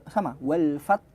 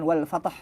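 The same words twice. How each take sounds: First: "wal fath" ending on a clean th; correct pronunciation. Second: "wal fatah" with an added a; wrong pronunciation. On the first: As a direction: say "fath" with no vowel after. (bacaan benar "wal fath") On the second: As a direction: say "fatah" with a wrong extra vowel. (bacaan salah "wal fatah") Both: Shown as a demonstration. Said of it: "bukan wal fatah".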